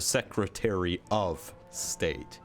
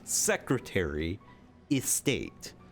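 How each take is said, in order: First: The word of is pronounced clearly and fully. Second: The word of is reduced to a blurred vowel.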